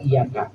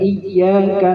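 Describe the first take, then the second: First: The y sound is short, not doubled. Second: The y sound is doubled and held longer. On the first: The speaker calls it wrong. "Tasydidnya kagak dijaga. Contoh iyaka" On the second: The speaker calls it right. "Harusnya iyyaka"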